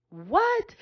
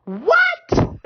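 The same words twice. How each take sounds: First: A hushed, breathless whisper rising at the end; awed whisper. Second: A sudden very high, loud cry of wonder; amazed. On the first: Preacher awed by the scripture, hushed whisper. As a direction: whisper it in stunned awe. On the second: Preacher marvelling at the scripture, high amazed cry. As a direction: shout it in delighted disbelief. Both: Real, not acted.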